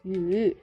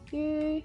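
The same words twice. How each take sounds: First: The pitch falls and then rises. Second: The pitch stays level throughout. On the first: It means give. "The third one we use fall and rise tone and it means give" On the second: It means stupid. "The first one we use level tone and it means stupid"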